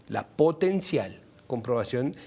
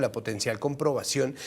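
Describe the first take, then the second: First: "potencial" slowed and set apart; deliberate, slow emphasis on "potencial"; stress on potencial. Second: Said in the usual way. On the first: Real, not acted. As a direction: lean on "potencial", drawing it out. Repeats it to underline potential.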